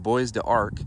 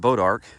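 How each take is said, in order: First: The first syllable sounds like 'bwah'. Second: The first syllable sounds like 'bo'. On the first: The speaker calls it wrong. "I was saying it wrong" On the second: The speaker calls it right. "it's actually pronounced Bodark"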